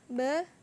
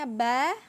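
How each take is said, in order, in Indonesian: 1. Vokalnya diucapkan dengan mulut setengah terbuka. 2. Vokalnya diucapkan dengan mulut terbuka penuh. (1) "Bacaan yang salah atau mulutnya masih belum terbuka" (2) "Kemudian ini bacaannya ba"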